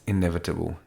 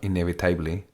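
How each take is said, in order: First: The unstressed vowels are reduced to schwa. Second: The unstressed vowels are said as full vowels. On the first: The speaker calls it right. "it's got a neutra... we call the neutra in English the schwa" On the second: The speaker calls it wrong. "It's not inevitably"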